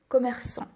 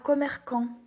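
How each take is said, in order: First: The middle consonant is a soft S sound. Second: The middle consonant is a hard K sound. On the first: The speaker calls it right. "Et nous, on veut commerçant" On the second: The speaker calls it wrong. "S'il n'y a pas de cédille, ça sera commerçant"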